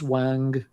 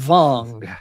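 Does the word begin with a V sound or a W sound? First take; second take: W; V. First: The word begins with a W sound. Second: The word begins with a V sound. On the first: The speaker calls it wrong. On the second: The speaker calls it right.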